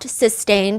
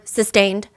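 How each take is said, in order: First: It is said softly and gently. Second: It is said firmly and strongly.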